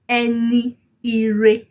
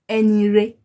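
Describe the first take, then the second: First: Both words are said fully with every vowel. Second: The vowel between words is dropped and merged. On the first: "That is the full pronunciation of it" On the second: "Can you see that you didn't really hear the E before ire?"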